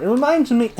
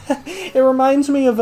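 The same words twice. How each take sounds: First: Said in the usual way. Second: Laughing. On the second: Real, not acted. Restarts phrase while laughing.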